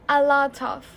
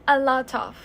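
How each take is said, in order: No difference in how they are said.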